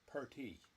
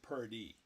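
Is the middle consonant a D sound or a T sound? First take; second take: T sound; D sound. First: The middle consonant is a crisp T sound. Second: The middle consonant is a soft D sound. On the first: The speaker calls it right. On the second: The speaker calls it wrong. "not not purdy"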